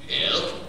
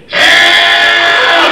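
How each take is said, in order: First: It is said a little louder, not shouted. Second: It is yelled loudly.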